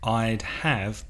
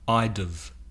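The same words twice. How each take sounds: First: The word have is said fully and clearly. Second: The word have is weak and reduced. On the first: "often pronounced by native speakers not as I'd have" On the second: "It's very weak"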